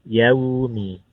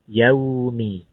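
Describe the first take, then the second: The two takes are said the same way.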